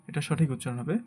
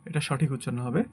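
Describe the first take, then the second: Both takes have the same delivery.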